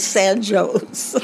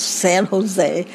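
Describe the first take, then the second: First: "San Jose" pronounced San Jhoze; correct way. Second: "San Jose" said the German way, closer to San Ho-zay with a final ay; "San Jose" pronounced San Ho-zay. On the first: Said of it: "the correct way is San Jose". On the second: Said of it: "German way to pronounce San Jose". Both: Shown as a demonstration.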